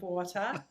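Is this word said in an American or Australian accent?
Australian. It is said in an Australian accent. This is the original home pronunciation. "instead of water, which still comes more naturally to me"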